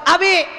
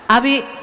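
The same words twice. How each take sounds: First: The name is called at a very high pitch. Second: The name is called somewhat higher in pitch.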